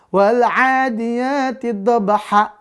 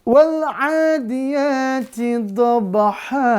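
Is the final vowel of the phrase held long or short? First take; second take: short; long. First: The final vowel is cut much too short. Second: The final vowel is held much too long. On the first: "jadi kependekan kalau begitu" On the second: "Panjangan. Bacanya salah"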